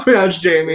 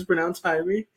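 First: "Jamie" said with an English J sound; wrong pronunciation of Jamie. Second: "Jaime" said as HI-mee; correct pronunciation of Jaime. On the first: Host rejecting the co-host's version of the name, mispronounced "Jamie". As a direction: say "Jamie" as JAY-mee. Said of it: "it is not pronounced Jamie". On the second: Host explaining their name to listeners, correctly pronounced "Jaime". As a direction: open "Jaime" with an H sound, not a J. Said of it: "the name that's spelled Jamie". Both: Shown as a demonstration.

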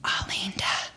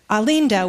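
First: Alinda breathed out as a hushed whisper; teacher's hushed word for pregnancy, whispered. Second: Said in the usual way. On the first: Retold or imitated. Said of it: "and he whispered, like my mom did". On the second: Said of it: "and he whispered".

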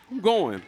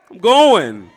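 First: Said in the usual way. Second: Loud, slow I'm going; loud declaration. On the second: Shown as a demonstration. Congregation told to declare it to their neighbor, loudly. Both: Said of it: "look at your neighbor and say".

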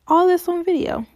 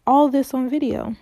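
First: "All this on video" repeated higher and louder, stress on "this"; indignant louder repeat; emphatic repeat. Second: Said in the usual way. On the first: Shown as a demonstration. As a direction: hammer it home the second time.

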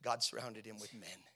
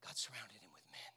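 First: Said in the usual way. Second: Low, soft whispery voice; reverent-sounding hush; hushed repeat. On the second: Real, not acted. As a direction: let it sink in, almost whispered. Same words repeated in a hush.

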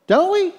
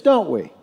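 First: Emphatic repeat. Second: Said in the usual way. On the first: Real, not acted. Pastor's repeated rhetorical question.

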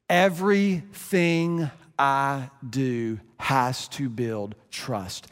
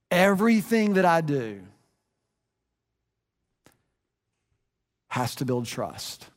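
First: Slowed right down, each word weighed; slow emphatic repeat. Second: Said in the usual way. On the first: Shown as a demonstration. Pastor repeating his parenting rule, slow and deliberate. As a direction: restate it slowly so it sinks in.

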